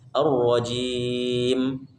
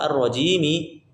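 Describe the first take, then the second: First: The word ends on a bare m sound. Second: The word ends with an added i vowel. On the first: The reader stops after this word. The speaker calls it right. "maka sukunkan huruf terakhirnya" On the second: The reader joins this word to the next. The speaker calls it wrong. "Enggak perlu ar-rajimi karena waqaf"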